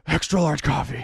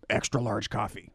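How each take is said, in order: First: Batman voice. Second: Low, slow Batman growl line. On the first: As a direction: push out the line in a put-on Batman voice. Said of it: "He's more like". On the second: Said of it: "here's a line". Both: Acted.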